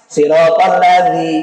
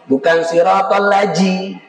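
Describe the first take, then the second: First: The consonant is a soft 'th' sound. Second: The consonant is a 'j' sound. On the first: The speaker calls it right. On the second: The speaker calls it wrong.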